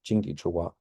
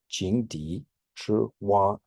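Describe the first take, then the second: First: Jingdi Zhiwa repeated at normal speed; quick recap of Jingdi Zhiwa; Chinese idiom repeated. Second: Jingdi Zhiwa said slowly, syllable by syllable; slow careful Mandarin reading of Jingdi Zhiwa; Chinese idiom read out. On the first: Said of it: "a frog at the bottom of a well". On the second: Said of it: "this one is". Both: Shown as a demonstration.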